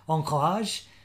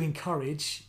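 First: The word is said in a French accent. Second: The word is said in a plain English accent.

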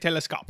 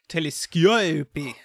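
First: The word is said with an English accent. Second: The word is said with a French accent. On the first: "I will say telescope" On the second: "in France we say telescope"

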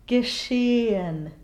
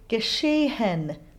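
First: The vowel flows into the schwa without any H. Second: An audible H is pronounced before the final syllable. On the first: The speaker calls it right. "the closed E and the schwa flow smoothly together" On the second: The speaker calls it wrong. "pronounce this H and say geschehen"

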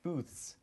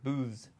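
First: It has a voiceless TH and ends in S. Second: It has a voiced TH and ends in Z. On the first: "the TH in booth, as we pronounce it, is non-voiced, we add the S sound to the end" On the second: "he used the voiced TH sound... he had a Z sound at the end to pluralize it, which sounds like booths"

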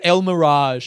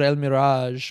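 First: The name is said with an English accent. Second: The name is said with a Spanish accent. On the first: The speaker calls it right. "Como se dice en inglés?" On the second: The speaker calls it wrong. "Why did I fucking say it like that?"

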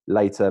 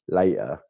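First: The middle T is clearly pronounced. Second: The middle T is dropped. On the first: "I never used to say my T's mid words, like later" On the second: "It was always water, later"

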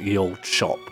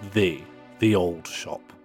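First: The first word begins with a 'y' sound. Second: The first word begins with a 'th' sound. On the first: The speaker calls it wrong. "I knew that was an incorrect pronunciation" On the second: The speaker calls it right. "So it's pronounced th"

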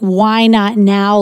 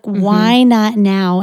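First: It sounds pushy and condescending. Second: It sounds gentle and encouraging. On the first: The listener is being forced to act. The speaker calls it wrong. "not saying in a way that's like, why not now? Like they're forcing you to do something" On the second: The listener is invited to consider something. The speaker calls it right. "they're calling something out in you and saying"

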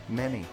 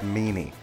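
First: The first vowel rhymes with 'men'. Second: The first vowel rhymes with 'mean'. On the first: The speaker calls it right. "it's like men, but you add a Y" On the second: The speaker calls it wrong. "It's like when people say Zach Meany"

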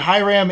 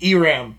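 First: The name is said in an English accent. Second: The name is said in a Spanish accent. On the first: "in English would be Hiram" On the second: "In a Spanish accent, it would be Iram"

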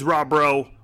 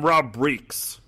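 First: The surname ends in an 'oh' sound. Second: The surname ends in a 'ks' sound. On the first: The speaker calls it right. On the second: The speaker calls it wrong.

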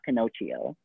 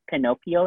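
First: The word is said in an anglicized way. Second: The word is said in the Italian way. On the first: The speaker calls it wrong. "not Pinocchio" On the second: The speaker calls it right. "it's also Pinocchio"

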